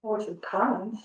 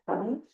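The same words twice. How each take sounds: First: Said in the usual way. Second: Comments? with the pitch rising at the end; question tune. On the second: Shown as a demonstration. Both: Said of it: "Make your voice go up at the end".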